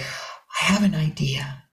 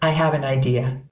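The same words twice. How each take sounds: First: The voice is airy, breathy and full of wonder. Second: The voice is ordinary, in a plain speaking tone.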